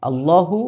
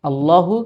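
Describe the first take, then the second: Both takes have the same delivery.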